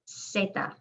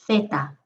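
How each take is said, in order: First: The first sound is a hissing s. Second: The first sound is a soft th. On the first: This is how it is said in Latin America. "Latin American way. ... Sounds just like the S" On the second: This is how it is said in Spain. "But if you're from Spain, you'll hear the difference"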